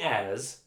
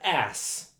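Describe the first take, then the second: First: The word is said like 'as', ending in z. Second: The word is said like 'ass', ending in s. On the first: The speaker calls it wrong. "Not as, you're saying as" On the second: The speaker calls it right. "So you have to pronounce it ass"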